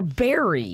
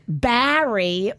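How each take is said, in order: First: The first vowel sounds like the e in bet. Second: The first vowel sounds like the a in cat. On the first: "the E" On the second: "The A"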